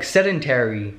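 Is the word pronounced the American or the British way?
American. The word is said with an American pronunciation. "apparently you say it sedentary. Like"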